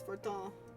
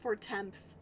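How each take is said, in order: First: The name ends with a short 'tan' sound. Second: The name ends with a clear 'temps' sound. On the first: This is how the name is known. The speaker calls it right. "but it's known as Fortin" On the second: This is how the speaker used to say it. The speaker calls it wrong. "I used to call it four temps"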